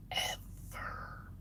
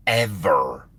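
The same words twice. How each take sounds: First: Breathy whispered "Ever." trailing off; a dead-serious whispered "Ever.". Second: Said in the usual way. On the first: Shown as a demonstration. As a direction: whisper the final "Ever." as a grim afterthought.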